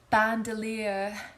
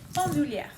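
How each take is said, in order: First: It is said with an American pronunciation. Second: It is said with a French pronunciation. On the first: The speaker calls it wrong. "How do they say it, Americans?" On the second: The speaker calls it right. "the correct pronunciation is bandoulière"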